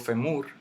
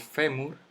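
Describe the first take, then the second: First: The stress is on the second syllable. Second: The stress is on the first syllable. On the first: The speaker calls it wrong. "yo no digo femur" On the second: The speaker calls it right. "Y cae en eso, en la fe"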